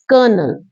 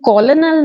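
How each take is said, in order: First: The word is said as two syllables, ker-nel. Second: The word is said as three syllables, ko-lo-nel. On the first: The speaker calls it right. "It's कर्नल" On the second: The speaker calls it wrong. "इसको कॉलोनल नहीं कहते"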